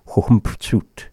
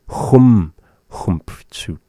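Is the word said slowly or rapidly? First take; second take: rapidly; slowly. First: The word is said rapidly and reduced. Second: The word is said slowly and carefully.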